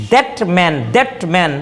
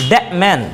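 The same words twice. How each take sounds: First: That man with the t sounded. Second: That man with no t; dropping the t. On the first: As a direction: say that man, t before m. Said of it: "টটা উচ্চারণ হয়". (ট সহ that man) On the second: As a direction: say that man, a gliding into m. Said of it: "একজন native speaker বলে". (ট বাদ দিয়ে that man) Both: Shown as a demonstration.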